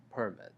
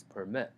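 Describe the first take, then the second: First: "permit" as PER-mit, first syllable stronger; "permit" with strong PER and weak ending; stress on first syllable. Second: "permit" as per-MIT, second syllable stronger; "permit" with weak per and strong ending; stress on second syllable. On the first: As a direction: punch PER at the start of "permit". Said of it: "the first syllable is much stronger". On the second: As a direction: lift MIT at the end of "permit". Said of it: "the second syllable". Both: Shown as a demonstration.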